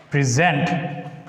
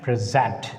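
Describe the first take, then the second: First: PreSENT, weak first syllable, rising at the end; verb stress on second syllable. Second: PRESent, open "prez", falling at the end; strong PRES in Present, falling; noun stress on first syllable. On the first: Teacher contrasting the word forms, stress on second syllable. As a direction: lean on SENT in Present, rising. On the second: Teacher contrasting the word forms, stress on first syllable. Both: Shown as a demonstration. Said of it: "make the difference by pronouncing them".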